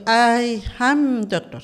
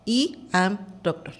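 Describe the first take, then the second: First: Slow, loud, higher demo of "I am doctor"; English pronunciation. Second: Spanish letter-sounds, "I" pronounced "ee"; read as spelt. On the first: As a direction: say I as English "eye", AM drawn out. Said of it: "lo complicado es la pronunciación". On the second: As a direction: say "I" as Spanish "ee" in "I am doctor". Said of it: "lo leemos tal como lo pronunciamos". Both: Shown as a demonstration.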